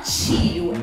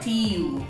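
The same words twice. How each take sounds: First: The t is softened into a ch sound. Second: The t is a plain, hard t sound. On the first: The speaker calls it wrong. "o som do T carioca pro inglês não serve" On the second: The speaker calls it right. "é tio"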